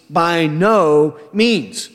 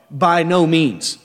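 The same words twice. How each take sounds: First: "By no means" drawn out slowly, each word weighted; slow it right down and lean on "By no means" with disgust; emphatic denial. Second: "By no means" said firmly, falling on "no"; a clear, decisive refusal of "By no means"; firm denial. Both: Shown as a demonstration. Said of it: "he's making an emphatic statement".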